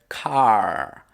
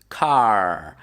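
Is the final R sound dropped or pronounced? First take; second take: pronounced; pronounced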